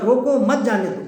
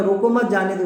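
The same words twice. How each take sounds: First: "روکو" stressed, "مت جانے دو" falling. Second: روکو مت جانے دو in one connected run; let-them-go phrasing. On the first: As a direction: punch روکو, then مت جانے دو together. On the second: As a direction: keep مت tied to روکو. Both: Shown as a demonstration. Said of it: "دو الگ الگ معنی".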